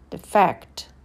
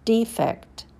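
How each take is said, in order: First: The stress is on the second syllable. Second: The stress is on the first syllable. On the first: It is a verb. "and then the verb" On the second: It is a noun. "First, you hear the noun"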